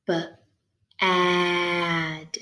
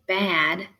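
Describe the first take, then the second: First: B, then a long stretched ad; said slow. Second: Said in the usual way. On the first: Shown as a demonstration. Teacher helping find the middle sound, said slow. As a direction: stretch out the vowel in B, ad. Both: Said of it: "You can say it slow like that".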